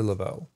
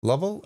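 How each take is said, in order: First: "Lovell" stressed on the second syllable; luh-VELL, second option for "Lovell"; offering another pronunciation. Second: "Lovell" stressed on the first syllable; LUV-ul, first option for "Lovell"; offering a pronunciation. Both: Shown as a demonstration. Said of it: "how would you pronounce that".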